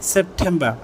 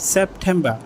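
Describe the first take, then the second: First: It is said with a British accent. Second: The same.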